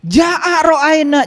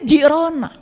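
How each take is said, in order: First: It is said slowly with every syllable. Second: It is said fast, syllables run together.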